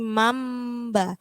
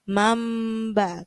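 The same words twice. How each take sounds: First: An m sound comes before the b. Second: The same.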